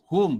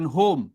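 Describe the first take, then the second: First: "Hum" with pushed h and close u; pressed airy h. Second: "hum" slackened towards hom; unpressed h, wrong vowel. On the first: Teacher shows hamas, "Hum" with airy h and u. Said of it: "hamas bila tekan baru dia jadi hum". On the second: Teacher shows the mistake, "hum" slack, like hom. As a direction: let "hum" open to hom, h not pushed. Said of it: "bukan hum". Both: Shown as a demonstration.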